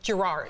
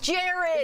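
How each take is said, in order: First: The name is said the American way. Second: The name is said the Scottish way. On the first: This is the common but mistaken pronunciation. The speaker calls it wrong. "we all call him Gerard" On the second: This is how the owner of the name says it. The speaker calls it right. "in Scotland, you don't pronounce that R"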